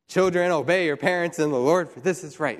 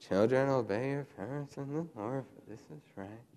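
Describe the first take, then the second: First: The verse is recited quickly and crisply. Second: The verse is recited slowly and reluctantly.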